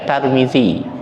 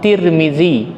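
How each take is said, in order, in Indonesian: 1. Vokal pertama adalah a. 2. Vokal pertama adalah i. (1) "yang tak boleh dibaca Tarmizi" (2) "atau Tirmizi"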